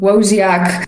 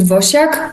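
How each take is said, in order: First: The name is said with English sounds. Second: The name is said with Polish sounds. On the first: This is an accepted everyday version. "I'm absolutely comfortable with Woziak" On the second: This is how people in Poland say it. "the Polish people pronounce it Wosiak"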